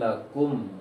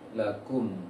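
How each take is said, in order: First: The final m keeps the lips rounded forward. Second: The final m closes the lips normally, unrounded. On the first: The speaker calls it wrong. "Jangan lakum" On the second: The speaker calls it right. "tapi lakum"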